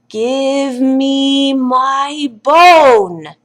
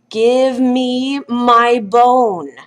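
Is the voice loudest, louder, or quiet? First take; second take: loudest; louder. First: It is said the loudest. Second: It is said a little louder.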